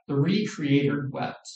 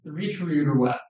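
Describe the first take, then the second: First: Slower, letting each word land; slow weighty repeat. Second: Said in the usual way. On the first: Shown as a demonstration. Preacher repeating to the congregation, slow and weighty. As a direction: let it sink in, slow. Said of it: "repeated slower for weight". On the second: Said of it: "repeated for emphasis".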